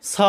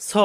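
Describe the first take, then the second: First: স as "saw" with open American a; American accent. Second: স as "saw" with rounded British o; British accent. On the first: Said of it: "American অ্যাকসেন্টে হবে". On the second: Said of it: "British অ্যাকসেন্টে হবে". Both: Shown as a demonstration.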